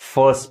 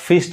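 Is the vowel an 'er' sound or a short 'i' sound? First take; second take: er; short i. First: The vowel is an 'er' sound. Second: The vowel is a short 'i' sound. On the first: The speaker calls it right. "फर्स्ट पढ़ेंगे" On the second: The speaker calls it wrong. "फिस्ट नहीं कहेंगे"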